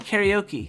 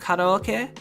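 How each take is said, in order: First: It is pronounced the English way. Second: It is pronounced the Japanese way. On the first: A listener would understand it. "they'd be like, oh, okay" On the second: A listener would not understand it. "They'd be like, what?"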